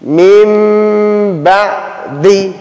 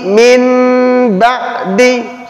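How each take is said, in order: First: A nasal m sound is said before the b. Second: An n sound is said before the b. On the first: The speaker calls it right. "maka dibaca mim. Dia dengung" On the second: The speaker calls it wrong. "tidak boleh kita baca min ba'di, Salah"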